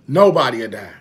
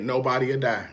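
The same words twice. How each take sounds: First: "Nobody'll die" said much louder, hammered; loud emphatic. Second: Said in the usual way. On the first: Real, not acted. Man preaching to viewers, "Nobody'll die" loud and emphatic. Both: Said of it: "repeated louder".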